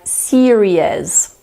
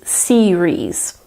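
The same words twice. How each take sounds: First: An extra vowel gives the word three syllables. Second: The word is said with only two syllables. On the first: The speaker calls it wrong. "add an additional vowel sound in there" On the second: The speaker calls it right. "there are only two syllables in this word"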